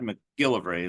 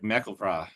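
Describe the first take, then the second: First: The stress is on the middle syllable. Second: The stress is on the last syllable. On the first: This is how people say it today. "like we do, ... more the middle syllable" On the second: This is how elderly people said it long ago. "the last syllable is the is the emphasis"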